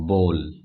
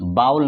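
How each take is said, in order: First: The vowel is a long 'oh' sound. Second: The vowel is an 'ow' sound as in cow. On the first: The speaker calls it right. "इसको हम लोग बोलते हैं बोल।" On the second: The speaker calls it wrong. "इसको हम लोग बाउल नहीं पढ़ते।"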